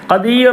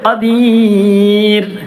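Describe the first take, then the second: First: The vowel before the final r is short. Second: The vowel before the final r is long. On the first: The speaker calls it wrong. "ഖദീർ എന്ന് പറയരുത്" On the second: The speaker calls it right. "അവിടെ നീട്ടണം"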